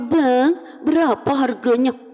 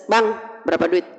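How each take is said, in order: First: It is said in a flirtatious, drawn-out voice. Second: It is said in a short, firm voice.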